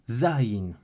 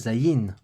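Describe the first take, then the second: First: The stress is on the first syllable. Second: The stress is on the second syllable. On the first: The speaker calls it right. "on accentue sur le za" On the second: The speaker calls it wrong. "Et pas"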